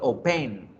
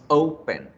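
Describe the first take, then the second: First: The stress is on the second syllable. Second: The stress is on the first syllable. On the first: The speaker calls it wrong. "Yo no digo open" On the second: The speaker calls it right. "Decimos open"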